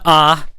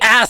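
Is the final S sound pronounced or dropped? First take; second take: dropped; pronounced. First: The final S sound is dropped. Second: The final S sound is clearly pronounced. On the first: The speaker calls it wrong. "You either pronounce the S or you get out" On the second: The speaker calls it right. "We say ass in this household"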